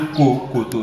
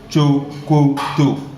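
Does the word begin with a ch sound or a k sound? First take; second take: k sound; ch sound. First: The word begins with a hard k sound. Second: The word begins with a ch sound. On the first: The speaker calls it wrong. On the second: The speaker calls it right.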